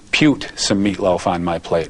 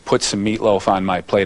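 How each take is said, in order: First: The word 'put' has an odd, quirky pronunciation. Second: The word 'put' has its ordinary pronunciation. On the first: This imitates someone's quirky way of talking. "it was" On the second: This is the usual way to say it. "instead of saying"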